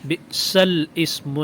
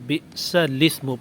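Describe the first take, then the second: First: The words are split with a glottal catch. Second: The words are joined without a glottal catch. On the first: The speaker calls it wrong. "बिसल इस्मु नहीं पढ़ेंगे" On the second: The speaker calls it right. "बिसलिस्मु पढ़ेंगे"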